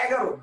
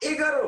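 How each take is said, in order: First: "এগারো" as "ægaro", starting on open æ; natural open vowel. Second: "এগারো" as "egaro", starting on close e; wrong close vowel. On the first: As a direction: say "এগারো" with the vowel of "cat" first. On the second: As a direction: say "এগারো" with e as written. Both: Shown as a demonstration. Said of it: "আপনি কি বলবেন?".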